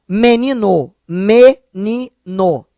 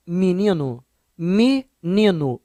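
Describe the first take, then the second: First: "menino" as ME-NI-NO, repeated syllable by syllable; E e O pronunciados. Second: "menino" as "mininu", then slowly split; pronúncia carioca. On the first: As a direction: sound full E and O in "menino". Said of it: "o E e o O". ("menino" silabado, com E e O claros) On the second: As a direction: turn E to I, O to U in "menino". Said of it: "Mas o carioca fala". ("menino" dito "mininu", com I e U) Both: Shown as a demonstration.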